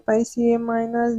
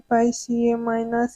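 Both takes have the same delivery.

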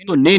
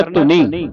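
First: ਧੁਨੀ with a hard double n, "dhunni"; wrong doubled n. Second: ਧੁਨੀ with a light single n, long ee; soft single n. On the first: Teacher mimics congregations misreading, ਧੁਨੀ with doubled n. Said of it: "ਧੁਨੀ ਪੜ੍ਹ ਜਾਂਦੀਆਂ ਅਦਕ ਲਾ ਕੇ". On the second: Teacher models for student, ਧੁਨੀ with soft single n. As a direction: keep the n of ਧੁਨੀ soft and undoubled. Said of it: "ਇਹ ਪੋਲਾ ਉਚਾਰਨ ਕਰਨਾ ਹੈ". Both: Shown as a demonstration.

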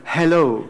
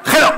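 First: "Hello" on a light puff of air; soft breathed H. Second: Short "hello" with a scraped throaty H; harsh Spanish jota H. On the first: Teacher modelling hello, soft H like cleaning glasses. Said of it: "limpiar las gafas, solo esto". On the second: Teacher parodying the wrong hello, harsh throaty H. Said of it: "no es". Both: Shown as a demonstration.

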